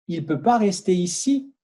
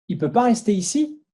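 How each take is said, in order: The two takes are said the same way.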